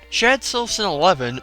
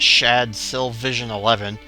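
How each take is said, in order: First: The middle name is said as 'Sylvson'. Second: The middle name is said as 'Sylvision'. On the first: The speaker calls it right. "that's how you pronounce it" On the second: The speaker calls it wrong. "it's not"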